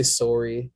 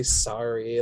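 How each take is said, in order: First: Sorry with a rounded "sore" vowel, sorry as /sɔɹi/; Canadian sorry. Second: Sorry with an American "sah" vowel, sorry as /sɑɹi/. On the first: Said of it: "We say sorry". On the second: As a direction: say sorry the American way, open "ah" sound. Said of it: "like, with an A". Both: Shown as a demonstration.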